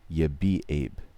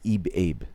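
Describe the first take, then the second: First: The letters of baby are read out in reverse. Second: The sounds of baby are reversed, like a tape. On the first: It can be written down as the word spelled backwards. "I say it in a way that you can write it" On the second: It would sound right if the recording were played backwards. "he doesn't do it like me"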